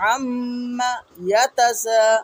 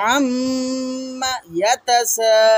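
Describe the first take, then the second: First: The voice stops briefly after the first word. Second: The voice stops briefly after the first word.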